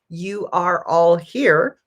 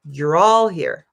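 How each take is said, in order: First: You and are are said as separate words. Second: You are is contracted to one syllable. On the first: "Not you are all here" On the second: "when I say it more naturally"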